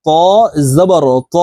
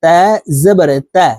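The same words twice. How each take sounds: First: ত with an emphatic t and rounded back vowel; careful, thick ত, pause before জবর; thick, heavy ত. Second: তা drawn out with a light fronted t; careful, light তা, pause before জবর; thin, light তা. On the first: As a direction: demonstrate heavy Arabic ত, full in the mouth. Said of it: "তর উচ্চারণ মোটাভাবে". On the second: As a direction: demonstrate thin Arabic তা with an open front vowel. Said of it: "তার উচ্চারণ হবে এইভাবে". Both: Shown as a demonstration.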